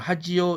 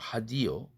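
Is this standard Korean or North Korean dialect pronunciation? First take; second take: standard Korean; North Korean. First: It is said with a palatalized standard Korean 'ji'. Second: It is said with a North Korean unpalatalized 'di'.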